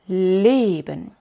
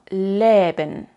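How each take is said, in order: No difference in how they are said.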